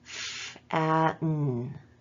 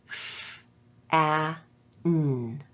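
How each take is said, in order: First: The sounds are separated by shorter pauses. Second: The sounds are separated by longer pauses.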